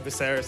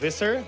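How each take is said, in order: First: The final R is hard and strongly pronounced. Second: The final R is soft, not strongly pronounced. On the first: This is how Filipinos usually say it. "The Tagalog with the hard R" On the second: This is the name's own pronunciation. "it's actually pronounced Visser"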